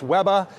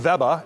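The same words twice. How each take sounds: First: The name is pronounced the Australian way. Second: The name is pronounced the German way. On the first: Locals see it as an Australian brand. "the same relationship in Australia. It's Weber" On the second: Locals see it as a German brand. "In Germany, consumers pronounce the brand Weber"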